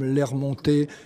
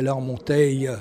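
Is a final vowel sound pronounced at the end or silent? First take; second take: silent; pronounced. First: The word ends without an extra final vowel. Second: The word ends with an extra final vowel.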